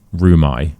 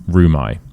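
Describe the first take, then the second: No difference in how they are said.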